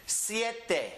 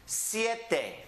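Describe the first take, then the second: No difference in how they are said.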